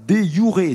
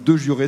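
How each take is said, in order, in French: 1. Il se prononce à la latine. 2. Il se prononce à la française. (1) "si je prononce correctement en latin" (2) "si vous préférez en français"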